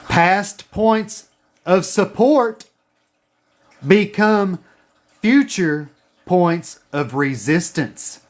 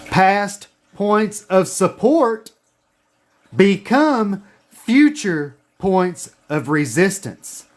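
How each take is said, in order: First: Slow, deliberate dictation; dictation pace. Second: Slow, deliberate dictation again; dictation pace. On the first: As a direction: say it slowly for them to write down. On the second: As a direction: spell it out slowly so they can write. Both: Shown as a demonstration. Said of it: "Write this down".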